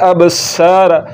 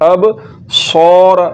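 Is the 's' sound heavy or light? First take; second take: light; heavy. First: The s sound is light and thin. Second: The s sound is heavy, with the tongue raised. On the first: The speaker calls it wrong. "یہ سین پڑھا جا رہا ہے جو کہ غلط ہے" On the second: The speaker calls it right. "موٹا کر کے پڑھنا ہے"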